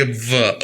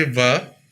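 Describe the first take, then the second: First: "वा" leaning on its first sound, pitch dropping; pressed W sound. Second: Said in the usual way. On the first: Shown as a demonstration. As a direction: put a little force into the onset of "वा". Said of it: "थोड़ा सा जोर लेंगे". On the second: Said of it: "simple पढ़ेंगे वा".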